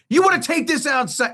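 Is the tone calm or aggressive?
aggressive. It is said in an aggressive tone.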